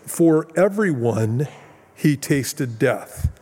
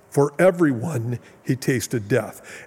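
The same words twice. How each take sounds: First: Slow, stressed "For everyone", pause before "he tasted death"; Greek word order emphasis. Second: Said in the usual way. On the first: Shown as a demonstration. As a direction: lean on "For everyone", then let "he tasted death" fall slowly. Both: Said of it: "it literally says it this way".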